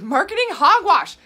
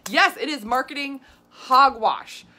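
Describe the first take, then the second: First: Marketing hogwash, shouted high and loud; loud scornful outburst. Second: Slower, still loud scorn; slow emphatic agreement. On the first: Vlogger scoffing at shake marketing, loud scornful shout. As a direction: bark it out in loud disgust. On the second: Vlogger confirming marketing hogwash, slow loud scorn. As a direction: drag each word out in disgust. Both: Real, not acted.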